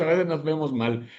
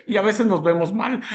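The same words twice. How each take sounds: First: Said in the usual way. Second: Laughing. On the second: Real, not acted.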